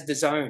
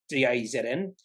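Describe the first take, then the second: First: "dazn" said as a single word, da-ZONE; pronounced as one word. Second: D A Z N said as four separate letter names; spelled out letter by letter. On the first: Correcting the company name for viewers, said as one word. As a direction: run "dazn" together as da-ZONE, no letters. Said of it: "you pronounce it as". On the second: Guessing a company name for viewers, spelled out letter by letter. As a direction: say "D A Z N" one letter at a time. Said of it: "I thought it would have been". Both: Shown as a demonstration.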